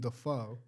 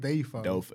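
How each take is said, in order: First: The first syllable does not sound like 'day'. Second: The first syllable sounds like 'day'. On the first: This is how the public came to say it. "people said Willem Dafoe, and it just stuck" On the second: This is the name's original pronunciation. "like D-A-Y-F-O-E. That's how you pronounce it"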